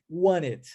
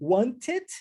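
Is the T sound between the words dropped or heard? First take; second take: dropped; heard. First: The T sound is left out entirely. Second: The T sound links into the next word. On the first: "eu posso omitir o som do T e dizer wanted" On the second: "Eu posso fazer wanted"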